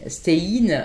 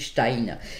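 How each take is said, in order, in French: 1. Le nom est prononcé à la manière française. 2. Le nom est prononcé à la manière allemande. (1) "Peut-être vous dites Stein" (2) "chez nous... consonance néerlandophone, germanophone... on dit Stein"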